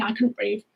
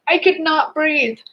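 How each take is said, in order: First: Said in the usual way. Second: "not" split out and stressed, said slowly; slow down and lean on "not". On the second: Real, not acted.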